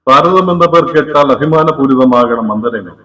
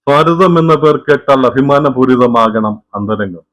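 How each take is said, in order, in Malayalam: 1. ശബ്ദത്തിൽ എക്കോ ചേർത്തിട്ടുണ്ട്. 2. ശബ്ദത്തിലെ പശ്ചാത്തല നോയിസ് കുറച്ചിട്ടുണ്ട്. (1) "റിവർബ് മോഡിൽ ഇട്ടിരിക്കുകയാണ്" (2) "നോയിസ് പ്രഷർ മോഡിലേക്ക് ഇട്ടിരിക്കുകയാണ്"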